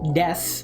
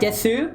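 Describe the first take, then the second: First: The final vowel is dropped, ending on s. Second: The final u vowel is fully pronounced. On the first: The speaker calls it right. "pronounced death" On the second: The speaker calls it wrong. "You just sound very foreign and robotic"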